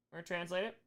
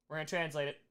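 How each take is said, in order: Both takes have the same delivery.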